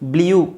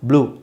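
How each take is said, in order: First: The vowel has a 'y' glide before it. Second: The vowel is a plain 'oo' without glide. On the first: The speaker calls it wrong. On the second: The speaker calls it right.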